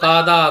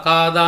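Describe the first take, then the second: No difference in how they are said.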